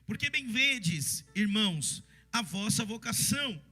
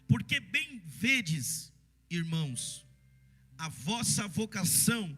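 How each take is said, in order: First: It is read at a normal, quicker pace. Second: It is read slowly with more pauses.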